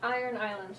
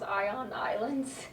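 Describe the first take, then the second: First: The first word is said as 'iron'. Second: The first word is said as 'ion'. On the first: "so it's like Iron Islands, right?" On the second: "I thought it was Ion Islands, and I like realized that was just like their accent"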